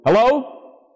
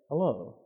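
First: It is said loudly, in a booming voice. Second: It is said softly, in a normal voice.

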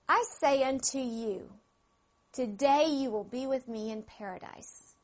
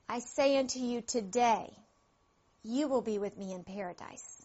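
First: The pause comes before the word 'today'. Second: The pause comes after the word 'today'. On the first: The thief will be in paradise that same day. "I'll say it two ways" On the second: The promise is being made on that day. "Now try it this way"

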